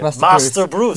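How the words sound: It is said in a put-on British accent.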